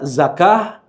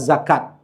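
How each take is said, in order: First: The word ends with a soft h sound. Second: The word ends with a clear t sound. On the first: "bisa kita baca menjadi ha" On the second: "atau kita baca menjadi ta"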